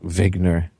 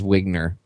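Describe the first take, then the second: First: The name is said with a German accent. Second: The name is said without a German accent. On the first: "that's how you'd say it if you had the German accent" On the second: "I think it was Wigner"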